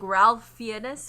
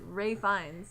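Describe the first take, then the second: First: The first name is said with an L sound. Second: The first name sounds like Rafe, no L. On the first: The speaker calls it wrong. "It's pronounced like it says" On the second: The speaker calls it right. "but you actually pronounce it"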